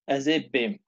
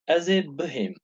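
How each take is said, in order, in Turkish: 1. Kısa biçim 'hi' sesi olmadan söylenir. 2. Tam biçim 'hi' sesiyle söylenir.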